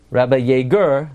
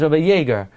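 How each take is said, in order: First: "Yeager" mispronounced with stress on its last syllable; "Yeager" wrongly end-stressed. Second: Said in the usual way. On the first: Shown as a demonstration. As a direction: punch the end of "Yeager", as yay-GUR. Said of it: "you're not gonna call". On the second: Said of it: "His name is Rabbi Yeager".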